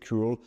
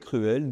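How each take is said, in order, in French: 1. Il se prononce à l'anglaise. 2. Il se prononce à la française. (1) "mots anglais que vous reconnaissez" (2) "on peut aussi les prononcer autrement"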